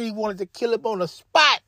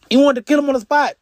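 First: Said in the usual way. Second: "kill" hit high and loud, faster; emphatic repeat. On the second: Shown as a demonstration. Narrator stressing the rival's rage, emphatic and fast. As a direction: drive the point home. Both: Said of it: "repeats line with force".

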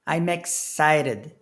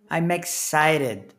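The two takes are said the same way.

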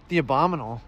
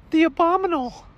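First: Said in the usual way. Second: Very high cartoon clerk voice; high-pitched questioning clerk; shop clerk character. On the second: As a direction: offer it in a squeaky, pitched-up voice. Clerk voice against customer's echo.

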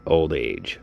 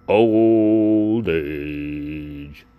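First: Said in the usual way. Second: Louder, stretched-out lament; louder drawn-out lament; drawn-out groan. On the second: Real, not acted. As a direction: moan the words out long. Repeats the complaint drawn out.

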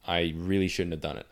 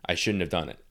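First: The regret hits harder on really; stress on really. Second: Said in the usual way. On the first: Real, not acted. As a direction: lean into the word really, falling.

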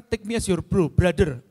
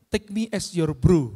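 First: Said in the usual way. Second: Slow, deliberate English motto; slow quote. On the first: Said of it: "saya mengatakan". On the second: Shown as a demonstration. Speaker quoting his own written motto, slow and deliberate. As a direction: spell out the motto slowly. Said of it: "Saya tuliskan begitu".

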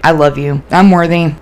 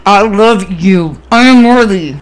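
First: Half-hearted mantra, no belief in it; going through the motions; unconvinced. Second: Forced out very slowly through clenched teeth; strained, reluctant self-affirmation; through gritted teeth. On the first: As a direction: recite it without believing a word. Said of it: "but I didn't believe it". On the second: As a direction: grit your teeth and drag the words out. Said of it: "I literally was gritting my fucking teeth". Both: Retold or imitated.

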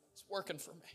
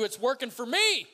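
First: Soft repeat of a declaration; quiet assurance. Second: Loud, high preacher's climax; exultant cry at the top of the build; triumphant shout. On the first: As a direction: say it softly, as a settled fact. Quiet repeat after shouted climax. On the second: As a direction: shout it out in full faith. Climax of faith declaration. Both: Real, not acted.

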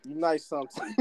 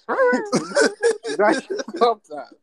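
First: Said in the usual way. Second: High, slow, laughing through it. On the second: Shown as a demonstration. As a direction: stretch it out while cracking up. Repeats compliment, then laughs it.

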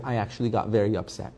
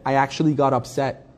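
First: Soft, quick, calm admission. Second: Said in the usual way. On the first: Retold or imitated. Rabbi imitates the calm teacher admitting he got upset, soft and calm. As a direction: say you were upset as calmly as possible. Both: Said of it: "In a very calm voice".

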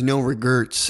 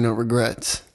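First: "regrets" said as "regurts"; "regrets" mispronounced to rhyme with "hurts"; misspelled "regrets". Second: Said in the usual way. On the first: Shown as a demonstration. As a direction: say "regrets" with an ER vowel, like "re-GURTS". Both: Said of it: "instead of saying".

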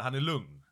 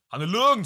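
First: Said in the usual way. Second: "Han är lugn" repeated much higher and louder; emphatic. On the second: Shown as a demonstration. Insisting to his friend that the rapper is calm, loud emphasis. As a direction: hammer home "lugn" loud and high. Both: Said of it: "säger jag".

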